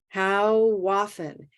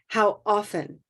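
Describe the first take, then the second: First: The two words run together as one word. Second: The two words are said apart as two words. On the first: The speaker calls it right. "where we link how often" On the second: The speaker calls it wrong. "not how often"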